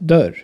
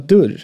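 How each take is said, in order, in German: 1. Der kurze Vokal ist ein offenes ö. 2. Der kurze Vokal ist gehoben, nah am ü. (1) "statt dörr" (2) "In Stockholm wird das kurze Ö vor R leicht zu einem Ü. Ich bin einer der Leute, die so reden"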